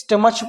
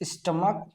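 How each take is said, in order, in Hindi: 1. यह शब्द ch ध्वनि से खत्म होता है। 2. यह शब्द k ध्वनि से खत्म होता है। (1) "कुछ बच्चे गलती करते हैं, इसको स्टमच पढ़ते हैं" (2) "सी एच का यहाँ पर जो उच्चारण है वो का के रूप में होता"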